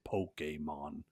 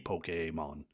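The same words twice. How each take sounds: First: The middle vowel is short. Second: The middle vowel is held long. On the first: "The E is always A" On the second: "it could be a long vowel too"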